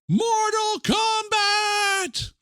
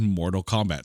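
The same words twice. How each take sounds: First: It is shouted loudly with dramatic energy. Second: It is said in a plain, even voice. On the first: The speaker calls it right. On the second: The speaker calls it wrong.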